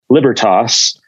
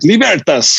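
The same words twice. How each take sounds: First: The name is said in an Americanized English way. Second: The name is said in an Italian, Romance way. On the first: "this Germanic, English, Americanized Libertas" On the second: "you think of the Italians, like Libertas"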